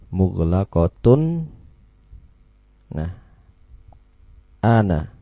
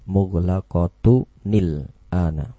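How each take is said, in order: First: The words are said separately with no linking sound. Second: The words are joined by a linking 'nil' sound. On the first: The speaker calls it wrong. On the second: The speaker calls it right. "dihapus tanwinnya, diganti dengan dhammah, kemudian yang satu diubah menjadi huruf nun"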